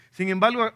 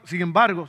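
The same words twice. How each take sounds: First: "Sin embargo" slips out as "sin embalo" in a Dominican way; "Sin embargo" with a casual Dominican "embalo". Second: "sin embargo" corrected, the r and g said clearly; "sin embargo" in standard Spanish; standard pronunciation. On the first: Real, not acted. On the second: Shown as a demonstration. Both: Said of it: "se me salió el dominicano".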